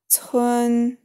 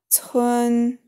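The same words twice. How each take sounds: First: The pitch stays high and level. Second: The same.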